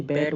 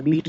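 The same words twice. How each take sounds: First: बैट with a short open A; short vowel. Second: बीट with a long EE; wrong long vowel. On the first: Teacher giving the correct reading, बैट with short a. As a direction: say बैट with the a of cat. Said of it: "बैट बोलेंगे". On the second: Teacher rejecting a reading, बीट with long ee. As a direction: stretch the vowel of बीट as in beet. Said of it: "बीट नहीं बोलेंगे". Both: Shown as a demonstration.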